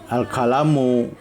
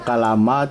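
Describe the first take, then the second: First: The word ends with a u vowel. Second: The word ends with an a vowel. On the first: The speaker calls it right. "Jadi al-kalamu" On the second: The speaker calls it wrong. "Tidak boleh dibaca al-kalama"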